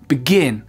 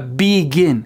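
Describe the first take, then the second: First: The second syllable is stressed, the first reduced. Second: Both syllables get equal stress and length. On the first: The speaker calls it right. "c'est begin" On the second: The speaker calls it wrong. "C'est vraiment pas deux syllabes qui sont égales, c'est pas begin"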